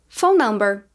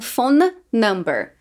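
First: The two words run together without a break. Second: The two words are said apart, one by one. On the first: The speaker calls it right. "Terminei com som de N, comecei com som de N" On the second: The speaker calls it wrong. "E não"

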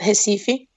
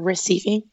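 First: The name is pronounced the Portuguese way. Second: The name is pronounced the English way.

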